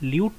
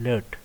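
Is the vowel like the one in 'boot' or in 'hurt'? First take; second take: boot; hurt. First: The vowel sounds like 'oo' in 'boot'. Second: The vowel sounds like 'ur' in 'hurt'. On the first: The speaker calls it wrong. "ल्यूट तो नहीं कहेंगे हम lookup table को" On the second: The speaker calls it right. "इसको हम कहते हैं लर्ट"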